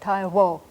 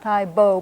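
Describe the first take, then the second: First: The middle consonant is between B and W. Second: The middle consonant is a full B sound. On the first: The speaker calls it right. "but Tai Wo" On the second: The speaker calls it wrong. "Not Tai Bo"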